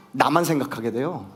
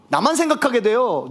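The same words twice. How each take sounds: First: Said in the usual way. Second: 생각하게 pushed higher and louder, falling at the end; emphatic repeat. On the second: Shown as a demonstration. Preacher repeating his point to the congregation, emphatic on 생각하게. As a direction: hammer home 생각하게 the second time.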